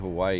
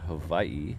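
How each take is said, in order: First: The middle consonant is a W sound. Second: The middle consonant is a V sound. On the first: The speaker calls it wrong. "you're technically mispronouncing the W" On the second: The speaker calls it right. "The W is a V sound, so it should be"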